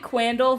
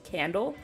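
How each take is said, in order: First: The name begins with a kw sound. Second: The name begins with a plain k sound. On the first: The speaker calls it wrong. "I called it Quandle for the longest time, but I don't think that's how you pronounce it" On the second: The speaker calls it right. "I literally think it's just pronounced Candle"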